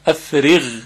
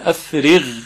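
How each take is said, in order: First: The final consonant is a 'gh' sound. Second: The same.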